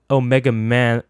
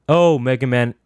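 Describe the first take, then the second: Both takes have the same delivery.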